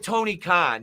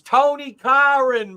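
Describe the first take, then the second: First: The name is said without an R sound. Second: The name is said with an added R sound.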